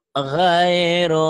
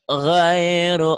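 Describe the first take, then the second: No difference in how they are said.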